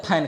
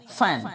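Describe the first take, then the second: First: फैन with an aspirated p in place of f; wrong pronunciation. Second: फैन with a true f, air passing the lips; correct f sound. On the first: Teacher quoting the common mistake for fan, wrong pronunciation. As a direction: lips closing into "phain" for फैन. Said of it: "तो फैन नहीं होता है". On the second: Teacher modelling the word fan, correct f sound. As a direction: say फैन without closing the lips. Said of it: "होठों से हवा इसमें बाहर जाएगी". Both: Shown as a demonstration.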